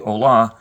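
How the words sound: It is pronounced like an English word. The speaker calls it wrong. "pronounce the syllables the way you would in English, it would be hola, but it's not"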